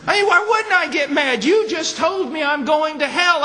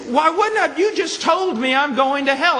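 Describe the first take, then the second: First: Very high, loud outraged echo; angry man again. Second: High, loud indignant retort; angry man. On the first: Preacher echoing the angry man's protest, high and loud. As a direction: hammer his outrage back at the room. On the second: Offended man snapping back at the preacher, high and loud. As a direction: fire back like you've been insulted. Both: Retold or imitated. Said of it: "He got very mad at me".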